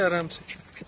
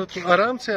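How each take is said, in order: First: Softer, hushed "आराम से", said gently and calmly; gentle and soft. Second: Said in the usual way. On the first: Real, not acted. Father helping his son off the ride, softly reassuring.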